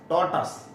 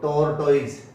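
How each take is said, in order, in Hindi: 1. यह शब्द छोटी 'tus' आवाज़ से खत्म होता है। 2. यह शब्द 'toyz' जैसी आवाज़ से खत्म होता है। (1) "इसको बोलना टॉटस" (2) "बहुत गलत है"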